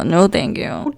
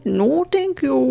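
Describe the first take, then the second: First: Said in the usual way. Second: Slow, higher, emphatic "No thank you."; drawn-out refusal. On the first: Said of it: "mm-mm, no". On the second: Real, not acted. Rejecting the game's lag, slow mock disdain.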